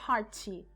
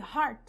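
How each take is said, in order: First: An extra vowel follows the final T. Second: The word stops sharply on the T. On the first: The speaker calls it wrong. "O mau hábito ... querendo dizer hearty" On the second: The speaker calls it right. "Acaba ali"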